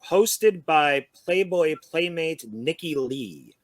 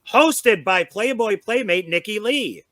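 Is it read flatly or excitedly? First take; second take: flatly; excitedly. First: It is read in a flat, plain way. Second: It is read in an excited, exclaiming way.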